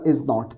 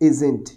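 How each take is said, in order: First: It is said as two separate full words. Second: It is said as one shortened contracted word. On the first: "जैसे हमने बोला इज नॉट" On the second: "इज नॉट को आप short में कैसे बोलते हैं"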